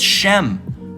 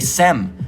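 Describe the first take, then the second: First: The name begins with an sh sound. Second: The name begins with an s sound. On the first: The speaker calls it right. "It's Shem" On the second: The speaker calls it wrong. "You say Sem"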